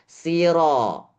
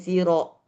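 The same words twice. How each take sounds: First: The final vowel sits between a and o. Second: The final vowel is a full, rounded o. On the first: The speaker calls it right. "tapi antara A dan O tengah-tengah" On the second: The speaker calls it wrong. "malah dibacanya siro, tapi sebenarnya bukan terlalu O"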